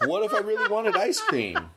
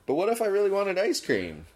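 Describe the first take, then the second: First: High-pitched question through laughter; laughing. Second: Higher-pitched protest as laughter subsides; insistent repeat. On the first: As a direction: barely get the question out for laughing. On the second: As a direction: ask it again in earnest, pitched up. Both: Real, not acted.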